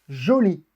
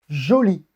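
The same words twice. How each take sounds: No difference in how they are said.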